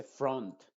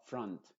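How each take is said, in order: First: FRONT with a rounded O, as FROHNT; mispronounced. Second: FRONT as FRUHNT, short 'uh'; correct vowel. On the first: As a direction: say FRONT wrongly with an O. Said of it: "No se dice front". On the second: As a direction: say FRONT with unrounded lips. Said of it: "sino front". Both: Shown as a demonstration.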